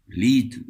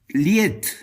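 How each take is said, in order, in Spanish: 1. La palabra se dice con pronunciación alemana, como 'leet'. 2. La palabra se lee letra por letra, al estilo español. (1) "los eruditos en música la pronuncian de otra manera" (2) "Yo estoy diciendo la palabra literal como está escrita"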